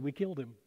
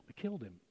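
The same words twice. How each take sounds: First: Softer, a heavy admission; quiet confession. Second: Much softer and lower, barely voiced; near-whisper confession. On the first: Retold or imitated. People telling aliens what they did to Jesus, hushed. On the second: People admitting to aliens they killed Jesus, barely audible. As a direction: let it sink almost to nothing. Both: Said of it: "And it got real quiet".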